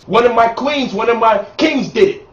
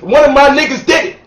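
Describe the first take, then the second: First: Calmer, dignified praise; conscious version. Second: Loud, proud hood celebration; hood shout-out. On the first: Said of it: "If you conscious". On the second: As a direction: shout it like your boy just won the title. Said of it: "That's what you're supposed to say if you're in the hood". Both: Pretend.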